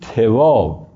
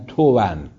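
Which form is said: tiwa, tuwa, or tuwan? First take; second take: tiwa; tuwan. First: The first vowel is i, not u. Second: It ends with an n sound after the vowel. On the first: The speaker calls it wrong. "به کسر تا" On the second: The speaker calls it right. "که منون است به اصطلاح، آخرش تنوین داره"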